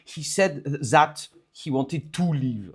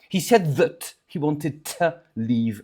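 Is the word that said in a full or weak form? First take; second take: full; weak. First: The word that is full and strong. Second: The word that is weak and reduced. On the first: The speaker calls it wrong. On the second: The speaker calls it right.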